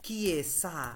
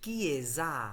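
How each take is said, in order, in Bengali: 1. মাঝের ব্যঞ্জনধ্বনিটি একটি হিসিং s ধ্বনি। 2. মাঝের ব্যঞ্জনধ্বনিটি একটি গুঞ্জন-যুক্ত z ধ্বনি। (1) "আমরা বলি না কিয়েসা" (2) "আমরা বলি কিয়েজা"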